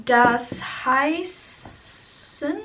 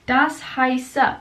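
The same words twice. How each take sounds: First: "heißen" drawn out slowly, a hesitant guess; slow unsure try at "Das heißen"; wrong ending. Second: "heiße" said cleanly with no final n; confident fix: "das heiße"; corrected ending. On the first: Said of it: "Oh, it's not heißen". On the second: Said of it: "it's not heißen, it's das heiße". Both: Shown as a demonstration.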